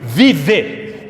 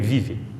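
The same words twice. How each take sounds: First: The final vowel is a full, clear e sound. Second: The final vowel is a weak sound between i and e. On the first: "Só quando você está bravo com seu filho" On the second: "O segundo é esse E, que é entre o I e E"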